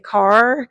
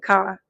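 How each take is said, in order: First: The final R sound is clearly pronounced. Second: The final R sound is left out. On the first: This is how speakers from Milwaukee say it. "they say car with the R" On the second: This is how speakers from Chicago say it. "we don't say the R"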